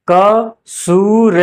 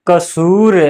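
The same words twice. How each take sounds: First: "क सूर" very slow in separate syllables. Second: Said in the usual way. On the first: Shown as a demonstration. Teacher spelling out an example, "क सूर" slow and split. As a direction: sound out "क सूर" piece by piece.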